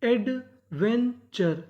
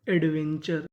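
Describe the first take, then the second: First: "adventure" very slowly, in separated chunks; syllable-by-syllable reading. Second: Said in the usual way. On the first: Shown as a demonstration. Teacher assembling the word for students, slow separated parts of "adventure". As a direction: break "adventure" into ed, ven, char with gaps. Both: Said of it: "तो meaning क्या बनी".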